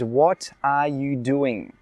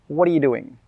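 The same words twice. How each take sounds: First: Each word is said clearly and separately. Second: The words are said quickly and run together. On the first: "This is correct. I said this correctly" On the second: "when a native speaker says it really quickly, it normally sounds like this"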